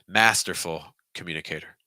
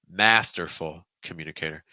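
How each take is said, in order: Both takes have the same delivery.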